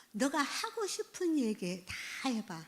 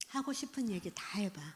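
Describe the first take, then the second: First: Said in the usual way. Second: 하고 싶은 얘기 다 해봐 breathed as a soft whisper. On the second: Shown as a demonstration. Lecturer demonstrating a gentle invitation to a teen, whispered. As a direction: hush it gently, all breath.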